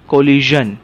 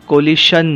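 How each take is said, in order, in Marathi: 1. मधला व्यंजन 'zh' आवाज आहे. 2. मधला व्यंजन 'sh' आवाज आहे. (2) "कोलिशन नाही"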